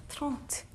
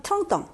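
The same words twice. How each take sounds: First: "트렁트" said softly with a separate final "트"; word pronounced alone. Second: "트렁덩" run together, the t linked into the next vowel; liaison pronunciation. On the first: Teacher shows thirty in French, "트렁트" pronounced alone with final t. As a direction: sound out "트렁트" by itself, ending on t. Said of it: "발음하시면 되고". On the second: Teacher demonstrates linking before a vowel, "트렁덩" in liaison. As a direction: link trente to ans as one word, "트렁덩". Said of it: "연음해서". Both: Shown as a demonstration.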